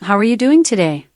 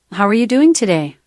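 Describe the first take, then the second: First: Lightly British-accented polite question. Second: Lightly Irish-accented polite question. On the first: Assistant giving the host accent samples, British accent. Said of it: "British accent". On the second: Assistant giving the host accent samples, Irish accent. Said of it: "Irish accent". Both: Shown as a demonstration.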